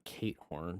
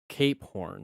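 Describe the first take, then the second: First: The P sound in the first word is dropped. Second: The P sound in the first word is clearly pronounced. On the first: The speaker calls it wrong. "not Kate Horn" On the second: The speaker calls it right. "Pronounce the P"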